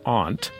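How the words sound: It is said the Northeastern American way. This is how the far Northeast says it. "the very northeasternmost part of the country... pronounce it as aunt"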